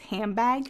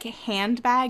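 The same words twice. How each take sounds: First: The n in hand sounds like an m. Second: The n in hand sounds like a plain n.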